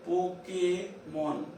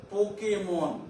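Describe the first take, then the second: First: "Pokémon" drawn out in pieces; dictation-slow "Po-ké-mon"; slow syllables. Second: Said in the usual way. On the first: Shown as a demonstration. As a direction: say "Pokémon" slowly, pausing before "mon". Teacher repeats example slowly.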